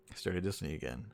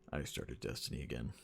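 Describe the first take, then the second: First: Said in the usual way. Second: Low, soft, deflated repeat; quieter, lower retake. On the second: Shown as a demonstration. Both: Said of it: "gets worse and worse each time you say it".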